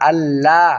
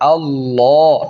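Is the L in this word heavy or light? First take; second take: light; heavy. First: The L is said light and thin. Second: The L is said heavy and full. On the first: The speaker calls it wrong. "তখন আল্লাহ এটা বলা যাবে না" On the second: The speaker calls it right. "তখন বলতে হবে আল্লাহ।"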